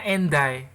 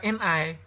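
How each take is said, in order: First: "and I" run together as "en-dai"; linked d pronunciation. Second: "and I" with no d, as "en ai"; unlinked pronunciation. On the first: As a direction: link the d of "and I" to the vowel: en-dai. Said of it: "bacanya and I". ("and I" dibaca "en dai", bunyi d disambung) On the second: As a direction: separate "and I" into en, ai, dropping the d. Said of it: "Karena bacanya bukan and I". ("and I" dibaca "en ai", tanpa bunyi d) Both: Shown as a demonstration.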